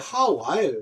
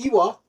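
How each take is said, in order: First: The name begins with an H sound. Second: The name begins with a vowel. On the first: This is the reading with the breathing mark. "H자가 붙어서" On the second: This is how it is read in English. "영어로 읽으면"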